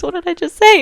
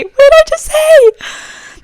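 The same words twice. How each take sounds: First: High, loud disbelief at yourself; incredulous. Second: Very high, loud, drawn-out squeal; incredulous squeal. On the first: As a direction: question your own slip in a high, loud voice. Baffled by her own slip. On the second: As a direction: shriek it slowly in sheer disbelief. Escalating disbelief at her slip. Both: Real, not acted.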